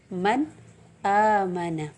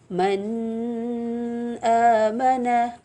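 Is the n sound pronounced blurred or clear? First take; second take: clear; blurred. First: The n sound is pronounced clearly and distinctly. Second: The n sound is blurred, not pronounced distinctly. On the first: The speaker calls it right. "tapi man amana" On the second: The speaker calls it wrong. "Bukan kita baca"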